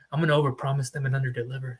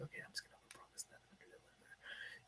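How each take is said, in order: First: Said in the usual way. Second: Unvoiced aside, the thing they won't say aloud; secret whisper. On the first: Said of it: "they don't tell you". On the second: Shady broker's private thought about clients, whispered. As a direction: whisper it like a hidden confession. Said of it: "they don't tell you, they're like".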